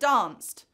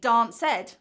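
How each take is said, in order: First: The ending is just a consonant. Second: The ending is an extra syllable. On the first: The speaker calls it right. "instead of danced" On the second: The speaker calls it wrong. "you may hear students say dance ed"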